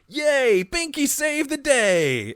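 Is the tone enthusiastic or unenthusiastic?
enthusiastic. It is said cheerfully, in Binky's voice.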